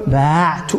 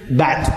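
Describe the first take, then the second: First: باعت with the aa stretched, then ayn and tu; long vowel before sukun. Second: بعت with a short a straight into ayn-tu; middle letter dropped. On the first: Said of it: "اتصل بها ضمير رفع المتحرك". (باعت بمدّ الألف وسكون العين) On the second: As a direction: say بعت with no long vowel. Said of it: "فتحذف العين تقول". (بعت بفتحة قصيرة بلا ألف) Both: Shown as a demonstration.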